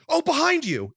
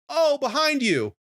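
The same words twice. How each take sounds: First: It is said in an alarmed, dramatic tone. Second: It is said in a casual, offhand tone.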